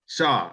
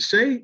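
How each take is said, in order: First: The name ends with an 'aw' vowel sound. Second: The name ends with an 'ay' vowel sound. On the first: The speaker calls it right. "No, Shaw" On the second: The speaker calls it wrong. "is it Shay? Am I saying that right?"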